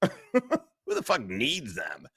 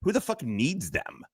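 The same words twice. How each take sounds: First: Slow, laughing repeat of the line. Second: Said in the usual way. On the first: Shown as a demonstration. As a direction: drag it out while laughing.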